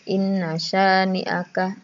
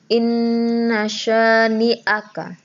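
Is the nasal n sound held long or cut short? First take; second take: cut short; held long. First: The n is short with no held nasal hum. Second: The n is held long with a nasal hum. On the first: The speaker calls it wrong. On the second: The speaker calls it right.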